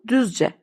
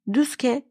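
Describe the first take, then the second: First: The middle consonant is a J sound. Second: The middle consonant is a K sound. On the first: The speaker calls it right. "Telaffuzu Düzce" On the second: The speaker calls it wrong. "Düzke değil"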